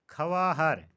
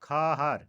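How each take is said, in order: First: ख़वाहर said kha-waa-har, louder; ख़वाहर in three syllables; mispronunciation. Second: ख़ाहर said khaa-har, louder; ख़ाहर in two syllables; correct pronunciation. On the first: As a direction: say ख़वाहर with audible w. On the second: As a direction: say ख़ाहर with silent w. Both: Shown as a demonstration. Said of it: "का सही तलफ़ुज़".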